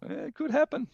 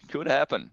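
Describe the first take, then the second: First: Sudden high-pitched yelp of hope; a high, hopeful squeal at the idea; high squeak. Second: Said in the usual way. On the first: Acted. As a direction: squeak it out in disbelief. Excited hope about the team's chances.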